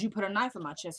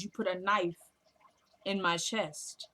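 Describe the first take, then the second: First: Said in the usual way. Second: "You put a knife", long pause, then "in my chest" drawn out; slow pointed accusation. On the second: Retold or imitated. Mother repeating the stabbing to her son, slow and pointed "in my chest". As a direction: spell out the accusation slowly, pausing after "knife".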